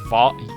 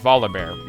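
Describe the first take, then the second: First: The 'li' syllable is strongly stressed. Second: The 'li' syllable is unstressed. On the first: The speaker calls it wrong. "he puts a lot of emphasis on the I" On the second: The speaker calls it right. "putting no emphasis on the I"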